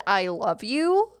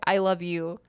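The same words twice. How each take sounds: First: "I love you" drawn out, rising on "you"; question intonation. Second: Said in the usual way. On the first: Shown as a demonstration. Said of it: "question mark". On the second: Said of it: "That's not a question".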